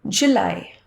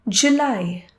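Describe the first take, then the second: Both takes have the same delivery.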